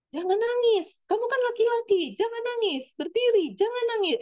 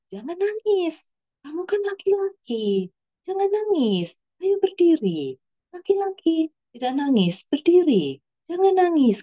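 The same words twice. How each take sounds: First: High-pitched, urgent imitation of a mother; high, hurried retold scolding; wrong scolding tone. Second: Imitating a mother firmly coaxing her son, high-pitched; high, measured lines with falling ends, unprovoked; raised-pitch mum voice, steady and spaced out; composed mother's instruction. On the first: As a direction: voice a mum telling her boy off, pitched way up. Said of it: "Nadanya nggak kayak gitu, maaf". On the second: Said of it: "saya pikir nadanya bagus ya, dia tidak terpancing, dia tetap tenang".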